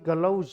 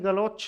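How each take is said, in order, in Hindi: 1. शब्द सघोष 'j' ध्वनि से समाप्त होता है। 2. शब्द अघोष 'ch' ध्वनि से समाप्त होता है। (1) "इसका शुद्ध रूप होगा गलौज" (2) "गाली गलौच नहीं"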